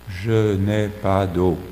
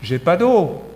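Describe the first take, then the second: First: It is said in a flat, neutral tone. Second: It is said in a curt, demanding tone.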